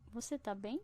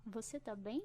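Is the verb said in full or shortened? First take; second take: shortened; shortened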